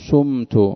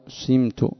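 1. الحركة الأولى صوت u تام. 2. الحركة الأولى i مع استدارة الشفتين. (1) "ولا يجوز الضم" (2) "سمت يعني بالإشمام"

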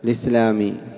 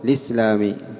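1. تُحذف الهمزة ويأخذ 'l' الكسرة. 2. تُحذف الهمزة ويأخذ 'l' الكسرة.

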